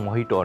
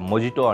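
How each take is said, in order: First: The middle consonant is an H sound. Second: The middle consonant is a J sound. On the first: The speaker calls it right. "జేని హా కింద ప్రొనౌన్స్ చేస్తారు" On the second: The speaker calls it wrong. "మొజిటో అంటాం కదా"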